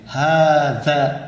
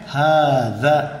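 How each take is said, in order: First: The middle consonant is a buzzing z sound. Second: The middle consonant is a soft th sound. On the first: The speaker calls it wrong. "हाज़ा नहीं, ये गलत है" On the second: The speaker calls it right. "ज़बान आपकी दो दा, दांतों के दरमियान बाहर को निकलेगी"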